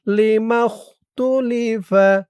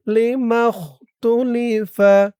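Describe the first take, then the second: No difference in how they are said.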